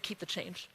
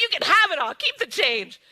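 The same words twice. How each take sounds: First: "Keep the change" dropped much softer and lower, almost to herself; hushed, private "Keep the change". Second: "Keep the change" thrown out louder and higher; big-hearted keep the change; bold, generous announcement. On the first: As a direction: let "Keep the change" fall away quietly. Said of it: "I said". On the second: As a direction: toss "Keep the change" off like pennies. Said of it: "I'm like". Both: Retold or imitated.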